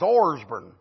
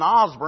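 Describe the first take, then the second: First: The first syllable has an r sound. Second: The first syllable has no r sound. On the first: The speaker calls it right. "it's Orsburn. That's the way it's spelled. O-R-S-B-O-U-R-N" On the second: The speaker calls it wrong. "It wasn't Osburn"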